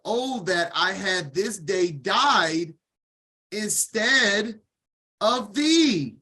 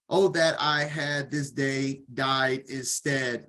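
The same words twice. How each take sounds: First: Anguished lament. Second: Said in the usual way. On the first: Shown as a demonstration. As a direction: cry it out as Sarah mourning her son. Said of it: "Your words are powerful". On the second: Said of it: "What did Sarah say?".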